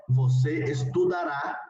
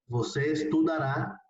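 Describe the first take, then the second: First: Você estudará, slow and deliberate, each syllable clear; teacher's careful Portuguese model; slow model pronunciation. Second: Said in the usual way. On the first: Shown as a demonstration. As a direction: say você estudará slowly for students to copy. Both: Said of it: "la conjugación en futuro sería".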